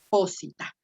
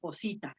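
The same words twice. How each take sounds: First: The stress falls on the first syllable. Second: The stress falls on the second syllable. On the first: The i is not marked long. The speaker calls it right. "se recorre una sílaba antes" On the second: The i would be marked long. The speaker calls it wrong. "Si tuviera el macrón sobre la I"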